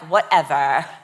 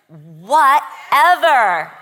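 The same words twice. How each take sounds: First: It is said in a dismissive, shrugging tone. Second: It is said in an emphatic, powerful tone.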